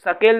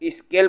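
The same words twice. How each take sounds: First: It starts directly with the s sound. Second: It starts with an ee sound before s. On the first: The speaker calls it wrong. "स्केल नहीं बोलते" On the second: The speaker calls it right. "स्केल बोलते हैं"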